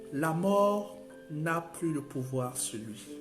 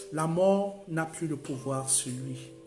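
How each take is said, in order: The two takes are said the same way.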